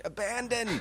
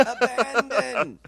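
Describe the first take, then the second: First: High, theatrical acting-coach call; drama teacher. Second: Slow, high, stretched-out theatrical cry; drama teacher. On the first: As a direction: lift it up like a grand drama teacher. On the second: Pretend. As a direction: draw it out like a hammy drama coach. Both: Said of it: "you sound like an acting coach".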